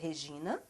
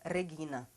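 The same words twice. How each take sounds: First: The name is pronounced the Portuguese way. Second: The name is pronounced the German way. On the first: The speaker calls it wrong. "não se pronuncia Regina" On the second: The speaker calls it right. "se pronuncia Regina, em alemão"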